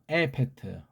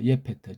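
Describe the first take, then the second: First: The name begins with a plain 'e' sound. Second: The name begins with a 'ye' sound. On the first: "원래 우리 훈민정음의 원리를 넣으면 에, 에페트예요" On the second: "예페트라고 번역해야 돼요"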